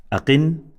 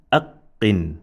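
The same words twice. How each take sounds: First: "Aqin" with a quick single q, higher pitched; no emphasis. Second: "aqqin" with the q held double, a catch before "qin"; emphasized consonant. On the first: Teacher modelling no emphasis, "Aqin" with undoubled q. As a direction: go straight through the q in "Aqin". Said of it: "no emphasis". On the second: Teacher modelling emphasis, "aqqin" with doubled q. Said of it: "When there is emphasis". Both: Shown as a demonstration.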